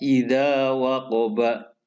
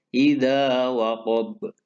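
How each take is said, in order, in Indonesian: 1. Kata terakhir berakhir dengan vokal penuh. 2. Kata terakhir berakhir pada konsonan memantul yang terhenti.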